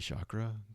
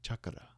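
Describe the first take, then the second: First: It is pronounced in the common Western way. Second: It is pronounced in an Indian way. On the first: "that's what most people have heard" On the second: "in Indian culture, it's chak- chakra"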